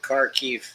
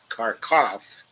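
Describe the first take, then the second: First: The name ends with a 'kiv' sound. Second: The name ends with a 'kov' sound. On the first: This is the non-Russian form of the name. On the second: This is the Russian form of the name.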